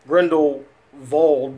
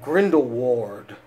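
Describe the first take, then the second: First: The w is pronounced as a v sound. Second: The w is pronounced as a w sound.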